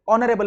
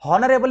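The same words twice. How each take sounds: First: ऑनरेबल with a silent h, starting on the vowel; right pronunciation. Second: हॉनरेबल with a sounded h at the start; wrong pronunciation. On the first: Teacher shows the right reading, silent h, vowel first. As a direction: say ऑनरेबल with no h at all. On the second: Teacher shows the wrong reading, h sounded at the start. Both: Shown as a demonstration. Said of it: "हॉनरेबल नहीं पढ़ते, ऑनरेबल पढ़ते हैं".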